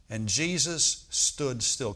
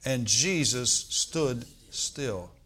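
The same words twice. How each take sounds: First: Very slow, each word weighed; slow reading. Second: Very slow congregation recital; slow together. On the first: Preacher reading the verse very slowly. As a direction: let every word land. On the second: Preacher leading the church reciting slowly. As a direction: say it slowly with everyone. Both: Shown as a demonstration. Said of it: "Can we say that together?".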